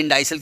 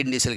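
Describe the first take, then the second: First: Indicial said "in-DIE-sal"; alternative pronunciation. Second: Indicial said "in-DEE-sal"; alternative pronunciation. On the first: Teacher weighing which name to use in exams, indicial as "in-die-sal". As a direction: give indicial a long "eye" in the middle. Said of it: "इसके indicial कहेंगे". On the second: Teacher offering the other exam option, indicial as "in-dee-sal". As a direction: give indicial an "ee" sound, not "eye". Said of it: "indicial कहेंगे". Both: Shown as a demonstration.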